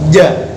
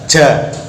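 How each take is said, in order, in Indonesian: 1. Ditekan kuat, tidak ada nafas yang keluar. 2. Diucapkan dengan nafas yang terdengar keluar. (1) "Jadi ditekan dengan lidah yang kuat" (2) "Contoh yang nafasnya masih keluar"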